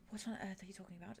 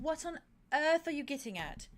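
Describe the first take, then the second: First: Fast, hushed disbelief; a rushed, breathless whisper of disbelief; incredulous whisper. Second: Higher and louder, exasperated; an exasperated, raised question; exasperated outburst. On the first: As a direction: whisper it quickly, baffled. Baffled reply retold to Arte. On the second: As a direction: demand it, losing patience. Pressing Arte, exasperated. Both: Retold or imitated.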